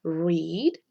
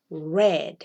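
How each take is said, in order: First: "Read" pronounced "reed", with a rising end; long ee in "Read", held up for repetition; present-tense read. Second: "read" pronounced "red", lower, with a falling end; short e in "read", dropped like a final answer; past-tense read. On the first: Teacher repeats the present form for learners, present-tense read. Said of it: "cambia solamente cómo se lee". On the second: Teacher contrasts the past with the present, past-tense read. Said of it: "como el color rojo". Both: Shown as a demonstration.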